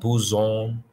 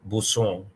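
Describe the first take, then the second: First: The middle consonant is a buzzing z sound. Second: The middle consonant is a hissing s sound. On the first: The speaker calls it wrong. "not buzon" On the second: The speaker calls it right. "It's more like a S"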